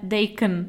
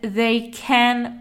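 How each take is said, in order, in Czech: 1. „Can“ má slabou, redukovanou samohlásku. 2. „Can“ má plnou, otevřenou samohlásku.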